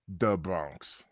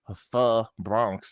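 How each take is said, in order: First: The word 'the' starts with a 'd' sound. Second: The word 'the' starts with a 'th' sound. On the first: The speaker calls it right. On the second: The speaker calls it wrong.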